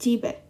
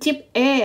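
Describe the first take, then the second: First: The syllables run together as one word. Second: The syllables are said separately with a break. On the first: The speaker calls it right. "tapi jibe" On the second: The speaker calls it wrong. "Bukan cip e ya"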